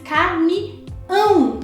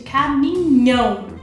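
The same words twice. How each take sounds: First: The word has no 'nh' sound before the ending. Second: The word has an 'nh' sound before the ending. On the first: This is how it is said in Portugal. "aqui se diz caminhão, não tem um N" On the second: This is how it is said in Brazil. "com N H"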